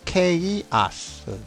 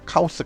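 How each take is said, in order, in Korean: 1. 이 단어는 'kay'로 시작하고 'uss'로 끝납니다. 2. 이 단어는 'kah'로 시작하고 'oss'로 끝납니다. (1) "이거를 발음하면은 케이아스" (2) "우리가 흔히 카오스라고 얘기하죠"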